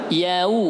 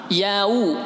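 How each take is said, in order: No difference in how they are said.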